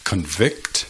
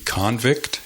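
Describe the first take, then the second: First: Convict as con-VICT, the verb; weak opening, stressed ending on Convict; stress on second syllable. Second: Convict as CON-vict, the noun; stress on first syllable. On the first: Teacher gives more examples, Convict stressed on second syllable. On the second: Teacher gives more examples, convict stressed on first syllable. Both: Shown as a demonstration. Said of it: "Hay muchos ejemplos más".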